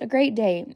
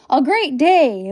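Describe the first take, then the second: First: It sounds flat and unexcited. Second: It sounds louder and more excited.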